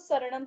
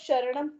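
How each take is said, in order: First: The word begins with an s sound. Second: The word begins with an sh sound. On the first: The speaker calls it right. "स यूज करना है" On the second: The speaker calls it wrong. "वो शरणम गलत है"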